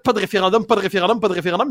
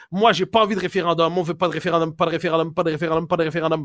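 First: Mock compulsive repetition; imitated stuck-record refrain; Rain Man tic. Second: Droning mock mantra; mechanical repetition. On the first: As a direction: repeat it on a loop like a verbal tic. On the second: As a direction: repeat it like a stuck formula. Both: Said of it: "ils ont l'air de Rain Man".

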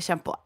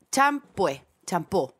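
First: "champú" with soft sh and final o; shampoo said as shampó. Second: "Champú" with ch and an -ué ending; shampoo said as champué. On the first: Woman compares ways to say it, champú as shampó. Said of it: "Yo digo". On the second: Woman shows how she says it, champú as champué. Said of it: "yo digo champú". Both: Shown as a demonstration.

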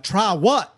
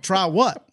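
First: High, panicky imitation of a scared flyer; mock a nervous wreck squealing in fright; panicked squeal. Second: Higher, frantic rising mock panic; panicked squeal. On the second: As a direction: yelp it like a scared passenger. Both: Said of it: "he was screaming like a four-year-old schoolgirl".

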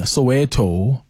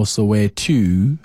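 First: Soweto said slowly, first variant; pronunciation demo. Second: Soweto slowly, in its other variant; alternative pronunciation. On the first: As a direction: sound out Soweto with deliberate care. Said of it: "doesn't matter how you pronounce it". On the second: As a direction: offer the second way of saying Soweto. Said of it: "best way to pronounce it". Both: Shown as a demonstration.

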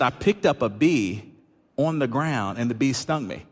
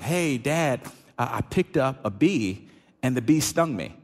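First: Slowed repeat, picked and bee spelled out one by one; drawn-out retelling that lets the point sink in; slow deliberate repeat. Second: Lightly voiced young son telling it plainly; a hint of a small boy reporting the sting; quick matter-of-fact kid report, barely voiced; quoting his son. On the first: Retold or imitated. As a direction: lay out each step as if it should be obvious. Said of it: "He said". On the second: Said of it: "So Sawyer responds to us like".

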